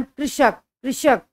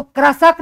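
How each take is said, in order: First: कृषक said as kri-shak, with the ऋ sounded as "ri"; कृषक pronounced kri-shak, the correct way; कृषक with a clear "kri" at the start; correct pronunciation. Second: कृषक said wrongly as krasak, with a full a after the k; कृषक misread as kra-sak; कृषक mispronounced with a plain "ra" sound; wrong pronunciation. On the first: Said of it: "इस तरह से करेंगे". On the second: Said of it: "इसको कृषक नहीं पढ़ेंगे". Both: Shown as a demonstration.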